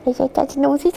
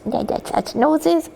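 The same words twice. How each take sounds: First: Said in the usual way. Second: Put-on baby talk. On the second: Shown as a demonstration. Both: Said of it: "I won't".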